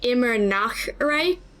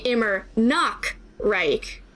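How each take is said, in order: First: The middle word has a soft, breathy H-like sound. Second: The middle word has a hard K sound. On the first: A land where it is always night. The speaker calls it right. "supposed to be saying" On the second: A land that is always naked. The speaker calls it wrong. "inserting a K there instead of doing the C H like H sound"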